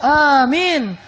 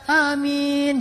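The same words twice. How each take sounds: First: It sounds strong and manly. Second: It sounds weak and unmanly.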